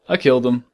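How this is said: It is said in a flat, matter-of-fact tone. The act was necessary and justified.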